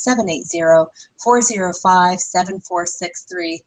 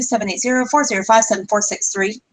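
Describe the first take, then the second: First: The number is said slowly. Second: The number is said quickly.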